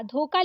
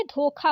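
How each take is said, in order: First: धोखा said as dhoka, plain k; wrong unaspirated क. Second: धोखा with a breathed kha; correct aspirated ख. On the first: Teacher reading the misspelling, धोखा as dhoka. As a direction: drop the breath from kha in धोखा. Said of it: "लिखा है तो ये गलत है". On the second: Teacher giving the correct word, धोखा with aspirated kha. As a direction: puff the ख in धोखा. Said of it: "ये धोखा होता है". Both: Shown as a demonstration.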